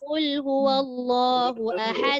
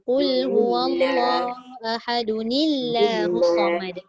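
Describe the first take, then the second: First: The word ends in a stop with no linking sound. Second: The word ends in '-dun-i' running into the next word. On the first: "Memang tak bunyi. Kan kalau berhenti" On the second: "Cuba kita sambung"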